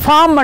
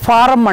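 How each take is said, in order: First: The r sound is silent, giving fom. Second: The r sound is clearly pronounced, giving faaram. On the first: This is how English speakers say it. "వాడేమంటాడు ఫామ్ అంటాడు" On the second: This is how we say it. "మనమైతే ఫారం అంటాం"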